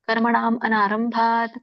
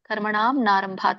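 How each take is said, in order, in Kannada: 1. 'narambhat' ಮೊದಲು ಮಧ್ಯದ ಸ್ವರ ಸ್ಪಷ್ಟವಾಗಿ ಉಚ್ಚರಿಸಲಾಗುತ್ತದೆ. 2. ಮಧ್ಯದ ಸ್ವರ ಇಲ್ಲದೆ ಪದಗಳು ಒಟ್ಟಿಗೇ ಹೇಳಲ್ಪಡುತ್ತವೆ. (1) "ಇಲ್ಲಾಂದ್ರೆ ಅ ಕೂಡ ಹಚ್ಚಬಹುದು" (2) "ಕರ್ಮಣಾಂ ನಾರಂಭಾತ್ ಅಂತೂ ಕೂಡ ಹೇಳ್ಬೋದು"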